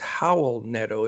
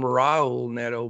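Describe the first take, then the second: First: The first name begins with an H sound. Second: The first name begins with an R sound. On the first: The speaker calls it right. "the R's are pronounced like H's" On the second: The speaker calls it wrong. "I was always called him Raul Neto"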